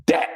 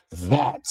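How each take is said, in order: First: "that" said as DAT, starting on a hard D; Cincinnati "that". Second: "that" with an exaggerated voiced TH at the front. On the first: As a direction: hit "that" with a D, no TH. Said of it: "We say that". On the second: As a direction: lean on the TH of "that". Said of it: "with a T H". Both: Shown as a demonstration.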